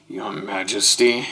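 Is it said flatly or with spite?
flatly. It is said flatly, without spite.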